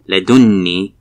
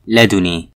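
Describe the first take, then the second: First: The n sound is doubled and held long. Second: The n sound is single and short. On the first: "is read with tashdeed at noon" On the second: "and without tashdeed"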